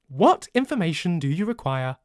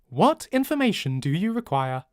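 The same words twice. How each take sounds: No difference in how they are said.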